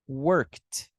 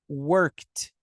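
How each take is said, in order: Both takes have the same delivery.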